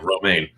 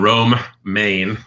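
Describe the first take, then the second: First: It is said fast as one word, no pause. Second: It is said with a pause between both words. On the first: It sounds like the name of a lettuce. The speaker calls it wrong. "If you say it too fast, it sounds like you're talking about lettuce" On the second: It names the town in the state. The speaker calls it right. "But it's actually in Rome, Maine"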